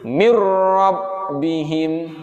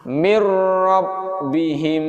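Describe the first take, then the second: Both takes have the same delivery.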